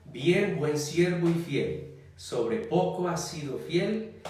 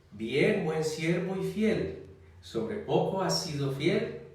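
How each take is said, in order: Both takes have the same delivery.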